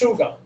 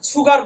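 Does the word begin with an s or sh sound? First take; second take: sh; s. First: The word begins with an sh sound. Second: The word begins with a plain s sound. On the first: "পাতলা যে সটা" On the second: "যেটাকে আমরা অনেক সময় সুগার বলি"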